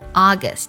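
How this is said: The first vowel is open, close to 'ah'. "美式的发音August"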